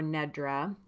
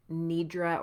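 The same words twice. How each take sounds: First: Nedra said with a short e, NED-ra; first vowel of Nedra as in "bed"; pronunciation NED-ra. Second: Nidra said with a long ee, NEE-dra; first vowel of Nidra as in "need"; pronunciation NEE-dra. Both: Shown as a demonstration. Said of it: "the next word is Nidra or Nedra".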